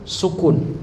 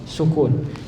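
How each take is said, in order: The two takes are said the same way.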